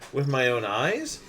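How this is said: It is said as a question, rising.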